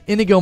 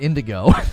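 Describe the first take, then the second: First: The name is said without a d sound. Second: The name is said with a d sound. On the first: This is the name's actual form. The speaker calls it right. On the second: This is how it was said in childhood. The speaker calls it wrong.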